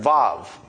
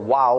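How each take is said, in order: First: It begins and ends with a v sound. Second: It begins and ends with a w sound. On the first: This is the usual pronunciation. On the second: This is the old pronunciation.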